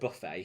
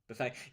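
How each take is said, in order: First: The word is said with a British pronunciation. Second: The word is said with an American pronunciation. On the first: "we call it buffet here in the U K" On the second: "over in the States they call it buffet"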